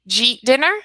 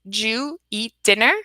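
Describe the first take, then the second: First: 'Did you eat' merges into one syllable, 'jeet'. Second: 'You' is dropped, leaving two syllables before 'dinner'. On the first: "to two. ... That's what you'll hear from a native speaker" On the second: "we reduce it to"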